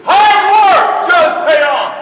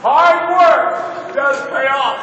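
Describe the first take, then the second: First: Slow, loud, high shout on HARD; emphatic shout. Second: Hard stretched out and stressed, very slow and loud; slow emphatic repeat. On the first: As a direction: hammer home Hard work slowly and loudly. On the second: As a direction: spell out Hard work word by word. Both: Shown as a demonstration. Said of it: "Did you hear what I just said?".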